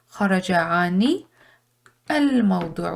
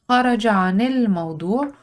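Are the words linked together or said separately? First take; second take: separately; linked. First: Each word is said separately. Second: The words are blended smoothly together.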